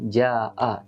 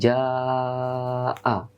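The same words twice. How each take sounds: First: The vowel after j is held only briefly. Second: The vowel after j is held for four beats. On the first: The speaker calls it wrong. "tidak boleh ja'a" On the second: The speaker calls it right. "empat harokat"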